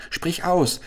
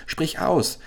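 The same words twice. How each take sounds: First: Much higher urgent cry; eager shout. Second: Higher urgent cry again, falling; eager shout repeated. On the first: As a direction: press her eagerly to speak. (hoher drängender Ruf) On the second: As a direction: insist once more, pressing. (drängend wiederholter Ruf) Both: Acted. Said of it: "schrie Chasid".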